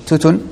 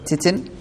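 First: The first vowel is a u sound. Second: The first vowel is an i sound. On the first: "أو يقال بالضم" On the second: "هل هو يقال بالكسر"

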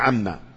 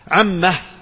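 First: The word ends on a short m sound. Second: The word ends with an added h sound. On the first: "القراءة المشهورة وهي عما بهذه الميم" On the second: "والثالثة وهي هاء السكت"

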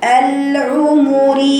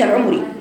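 First: Each vowel is held for its full length. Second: The vowels are clipped and rushed together. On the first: The speaker calls it right. "لازم تسمعي صوت الضمتين" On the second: The speaker calls it wrong. "ما تقوليش العمري، ده اسمها اختلاس في الحركات"

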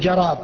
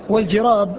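First: The first vowel is an 'a' sound. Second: The first vowel is an 'i' sound. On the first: The speaker calls it wrong. "يأتي بالفتحة فيقول جراب" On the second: The speaker calls it right. "هو بكسر الجيم"

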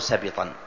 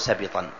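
First: The b sound is followed by an i vowel. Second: The same.

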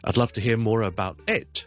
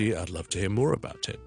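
First: The pitch change falls on the word it. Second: The pitch change falls on the word more. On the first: The speaker calls it wrong. "我哋語調唔會喺呢一度轉變，所以我哋唔會講成咧" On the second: The speaker calls it right. "more 系高音，about it 就全部都低音。So 听住"

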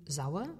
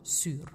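First: The word is said with the diphthong au. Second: The word is said with a ü vowel.

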